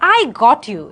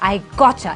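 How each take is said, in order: First: The t and y sounds stay separate. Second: The t and y blend into a ch sound. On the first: "এটা না বলে" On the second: "টা এবং ইয়া blend হয়ে চা"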